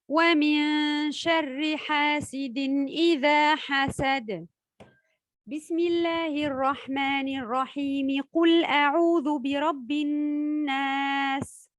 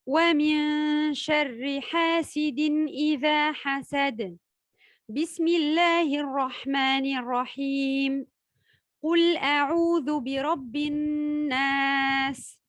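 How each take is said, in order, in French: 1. Elle marque une pause seulement avant la basmala, puis enchaîne. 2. Elle marque une pause avant et après la basmala. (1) "lire la fin de la sourate, puis marquer un temps d'arrêt, enchaîner ensuite Al-Basmala et le début" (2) "lire la fin de la sourate et s'arrêter, ensuite lire la basmala, puis marquer à nouveau un temps d'arrêt"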